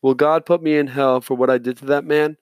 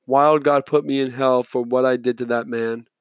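First: "Will God" with no D, a question rising at the end; corrected reading. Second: "Wild God" said with a clear D, as a flat statement; misread line. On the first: Audiobook reader retakes the boy's line as "Will God", a question. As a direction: reader corrects the slip, asking "Will God put me in hell". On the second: Audiobook reader misreads the boy's question, says "Wild" with a D. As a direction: reader slips, saying "Wild God put me in hell" instead of "Will". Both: Real, not acted. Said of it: "Oh, sorry".

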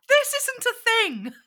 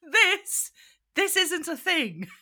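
First: High, slow squeaky sneer; mock review voice. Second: High, squeaky mocking of a snooty critic; mock review voice. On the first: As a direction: stretch it out like a prissy critic. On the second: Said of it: "was the review".

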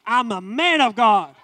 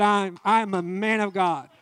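First: Louder, lightly voiced take on Destiny; a hint of Destiny mimicking dad; imitating Destiny. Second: Said in the usual way. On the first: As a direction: echo him back as Destiny, louder. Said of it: "Then Destiny gets on me". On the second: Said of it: "I said".

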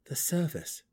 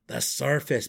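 First: Composed reply, slightly high-pitched; even-tempered dark elf reply; said evenly. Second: Loud, dismayed gnome mutter; muttered, almost groaning. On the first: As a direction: answer calmly and simply. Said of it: "Driz replied evenly". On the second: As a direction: groan it out, appalled. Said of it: "Belwer muttered". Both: A narrator's reading.

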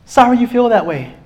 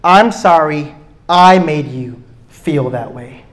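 First: Wrong version, dismissive. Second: Slow, sincere correction; the right way to apologise, slow and sincere; sincere apology. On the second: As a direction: say it like you own it. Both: Shown as a demonstration.

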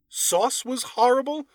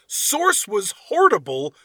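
First: Said in the usual way. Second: Source said as written, like the word source; misread as written. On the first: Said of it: "I'm gonna kinda correct him as we go". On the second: Shown as a demonstration. Reading the review's typo aloud, Source said literally. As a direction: read Source literally as typed, slowly. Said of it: "I'm gonna read it the way he put it".

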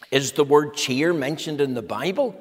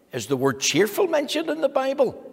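First: Said in the usual way. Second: Asked much higher, rising on the word cheerful; high, bright re-ask of the question; lifted question. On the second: Real, not acted.

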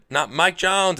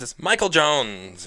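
First: "Mike Jones" high and loud, falling at the end; "Mike Jones" said high at a normal pace; contrasted short name. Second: "Michael Jones" high and very slow; "Michael" stressed and "Jones" held long; drawn-out full name. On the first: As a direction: reject "Mike Jones" loudly, without stretching it. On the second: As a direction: stretch out "Michael Jones" as the correction. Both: Shown as a demonstration.

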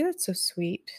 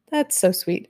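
First: Much softer, almost under the breath; quiet, private reaction; soft aside. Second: Said in the usual way. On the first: Real, not acted. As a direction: murmur it to yourself, touched. Reacts softly to chat.

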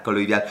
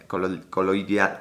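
First: Said in the usual way. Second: Sounding out coloidal slowly, syllable by syllable; halting pronunciation. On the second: Shown as a demonstration. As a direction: stumble through "colo-, coloidal" piece by piece. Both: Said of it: "no sé qué sea la plata colo".

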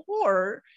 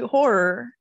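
First: "Horror" merged into one syllable, like "hor"; accented one-syllable pronunciation. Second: "horror" with a clear second syllable, "hor-er"; careful two-syllable pronunciation. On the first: Showing how they always heard it, "Horror" as "hor". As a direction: drop the second syllable of "Horror". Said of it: "that's how I've always heard it". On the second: Trying again after friends tease, "horror" as "hor-er". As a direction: finish "horror" on a distinct "-er". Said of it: "I can never pronounce horror". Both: Shown as a demonstration.

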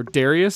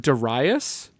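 First: Darius said "DARE-ee-us"; alternative pronunciation of Darius. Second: Darius said "duh-RYE-us"; alternative pronunciation of Darius. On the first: Host offering the other way to pronounce it, Darius as "DARE-ee-us". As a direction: stress the first syllable of Darius. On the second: Host offering two ways to pronounce it, Darius as "duh-RYE-us". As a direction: stress the middle of Darius, as "RYE". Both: Shown as a demonstration. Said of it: "depending on how you wanna pronounce it".

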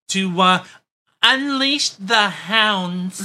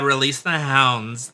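First: Slow, higher-pitched mock German voice; German accent. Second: Slow mock order, no German accent. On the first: Co-host voicing Trudeau ordering police out, mock German accent. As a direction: drag it out in a hammed-up German accent. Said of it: "in my best German voice". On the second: Co-host redoing Trudeau's order to police, slow mock command. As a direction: give the order slowly in your own accent. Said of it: "Sorry, and be more like".

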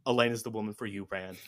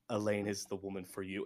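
First: Mock Aviendha, pushier. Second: Mock Aviendha. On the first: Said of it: "see a female lizard and go". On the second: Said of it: "Aviendha comes over and goes".

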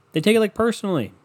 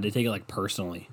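First: Higher, louder, stressing "personally"; pitched-up mock outrage on "personally"; emphatic repeat. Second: Said in the usual way. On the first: Shown as a demonstration. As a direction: lean hard on "personally" the second time.

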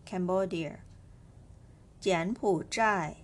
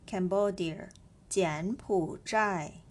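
The two takes are said the same way.

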